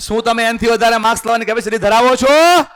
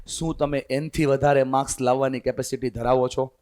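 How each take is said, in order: First: Louder, higher and rising on છો; loud repeat. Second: Much softer, lower question; quiet first asking. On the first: Teacher repeats question to students, loud and rising. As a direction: throw the question out to wake the room. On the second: Teacher first asks students quietly. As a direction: ask it under your breath to the class. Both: Shown as a demonstration. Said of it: "જવાબ આવે છે ને?".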